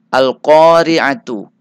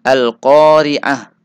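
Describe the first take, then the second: First: The word ends with a t sound and a vowel. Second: The word ends with a silent h sound. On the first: The reading continues without a stop. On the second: The reader stops on this word.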